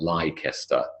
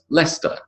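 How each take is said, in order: First: All of the written letters are pronounced. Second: Some of the written letters are silent. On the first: The speaker calls it wrong. "and not Leicester" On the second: The speaker calls it right. "is pronounced Leicester"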